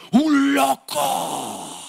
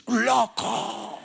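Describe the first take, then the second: First: Slow drawn-out voice of Andrés. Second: Said in the usual way. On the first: Acted. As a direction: stretch it out like Andrés. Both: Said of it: "Así me ha salido como voz de Andrés".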